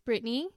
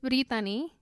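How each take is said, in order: First: The name is said with English pronunciation. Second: The name is said with Spanish pronunciation. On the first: "but in English it's Brittany" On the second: "My name is Brittany in Spanish"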